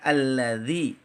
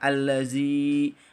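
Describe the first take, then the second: First: The vowel is kept short. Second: The vowel is drawn out long. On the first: The speaker calls it right. "harusnya tidak diusap panjang" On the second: The speaker calls it wrong. "dibaca panjang"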